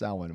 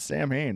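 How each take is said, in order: First: The word does not sound like 'Sam Hain'. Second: The word sounds like 'Sam Hain'. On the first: The speaker calls it right. "no, it's Samhain" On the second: The speaker calls it wrong. "you're saying it wrong"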